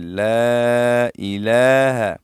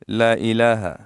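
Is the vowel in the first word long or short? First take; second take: long; short. First: The first vowel is stretched for two counts. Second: The first vowel is short, not stretched. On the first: The speaker calls it right. "लाम को दो अलिफ की मकदार हम खींचेंगे" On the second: The speaker calls it wrong. "अक्सर लोग किस तरह पढ़ते हैं ... तो ये गलत है"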